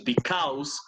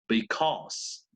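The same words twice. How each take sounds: First: The second vowel sounds like a and u. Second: The second vowel sounds like an o. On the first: The speaker calls it wrong. "no es because" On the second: The speaker calls it right. "esa A U suena O"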